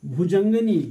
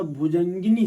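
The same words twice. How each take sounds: First: भुजंगनी called out loud, with no i after ग; wrong form, loud. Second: भुजंगिनी with a clear i after ग, said calmly; correct form. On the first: Teacher to students, loudly naming the wrong word. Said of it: "भुजंगनी कोई शब्द नहीं होता". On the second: Teacher to students, calmly giving the right form. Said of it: "भुजंगिनी शब्द होता है". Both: Shown as a demonstration.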